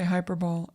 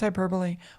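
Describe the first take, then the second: First: It is pronounced the way the spelling looks. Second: It is pronounced the usual spoken way. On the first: The speaker calls it wrong. "no one should make fun of you for mispronouncing it" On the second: The speaker calls it right. "It's hyperbole"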